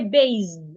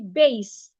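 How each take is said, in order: First: The word ends with a buzzing Z sound. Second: The word ends with a hissing S sound. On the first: The speaker calls it wrong. "Don't change the S to a Z. Do not say base" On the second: The speaker calls it right. "Say base"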